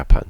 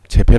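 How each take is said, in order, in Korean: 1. 이 단어는 Y 소리로 시작해요. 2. 이 단어는 J 소리로 시작해요. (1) "야판이에요" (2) "재팬 아니에요"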